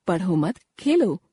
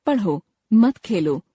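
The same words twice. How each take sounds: First: "पढ़ो मत" run together, a pause, then "Khelo"; pause after मत. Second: "पढ़ो" alone, a pause, then "मत खेलो" together; pause after पढ़ो. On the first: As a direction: break after मत, leaving Khelo on its own. ("पढ़ो मत" एक साथ, विराम के बाद "खेलो") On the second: ("पढ़ो" के बाद विराम, फिर "मत खेलो" एक साथ) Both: Shown as a demonstration. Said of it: "केवल विराम चिन्ह के प्रयोग के कारण".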